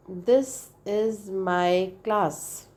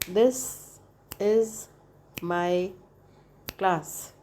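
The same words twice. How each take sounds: First: Stretched out very slow, syllables drawn apart; slow demo. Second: Each word alone with a pause, like a clap on every syllable; clapped syllables. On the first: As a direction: say it slowly to count the syllables. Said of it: "say the word". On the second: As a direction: beat out the words one clap at a time. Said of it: "this way". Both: Shown as a demonstration.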